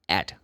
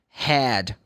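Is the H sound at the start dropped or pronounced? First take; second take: dropped; pronounced. First: The word begins without any H sound. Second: The word begins with a clear H sound. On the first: "in Cockney English ... They drop the H. They say ed" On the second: "because the H most of the time has the sound head"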